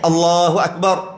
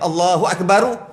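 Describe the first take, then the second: First: The final r is closed with no vowel after. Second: The final r is followed by a short u vowel. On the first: The speaker calls it right. "sah semayang" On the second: The speaker calls it wrong. "sah juga semayang, tapi makruh"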